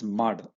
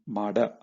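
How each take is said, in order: First: The word ends on a bare final consonant. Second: The word ends with an added vowel sound. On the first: The speaker calls it right. "You have to remember that it's mad" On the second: The speaker calls it wrong. "not mada"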